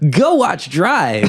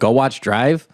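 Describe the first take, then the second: First: It is said in a put-on character voice. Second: It is said in the speaker's normal voice. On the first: The speaker calls it right. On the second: The speaker calls it wrong.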